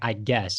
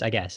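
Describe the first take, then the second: First: The G sound is pronounced clearly. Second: The G sound is nearly skipped over. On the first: "I am not saying like I guess" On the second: "I kind of almost skipped right over that G almost"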